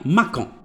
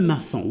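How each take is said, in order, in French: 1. La consonne du milieu est un son K. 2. La consonne du milieu est un son S. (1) "الا قريناها غتقرا ليا ماكون" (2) "ما كاينش حاجه سميتها ماكون كاين ماسون"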